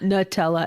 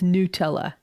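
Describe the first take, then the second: First: The first syllable sounds like 'nuh'. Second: The first syllable sounds like 'new'. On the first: The speaker calls it wrong. "Not Nutella" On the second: The speaker calls it right. "it's Nutella"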